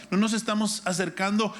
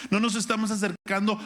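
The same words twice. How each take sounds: The two takes are said the same way.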